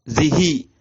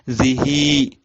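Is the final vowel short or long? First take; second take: short; long. First: The final i vowel is short. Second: The final i vowel is drawn out long. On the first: "itu pendek" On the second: "Kalau panjang"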